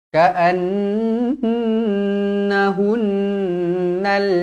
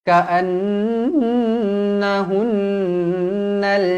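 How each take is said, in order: Both takes have the same delivery.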